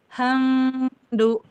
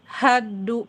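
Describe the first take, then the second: First: The m is hidden and only faintly nasal. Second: The m merges completely into the d. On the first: "Kalau dia ikhfa" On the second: "kalau idgham"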